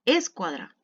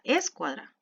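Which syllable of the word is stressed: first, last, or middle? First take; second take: first; first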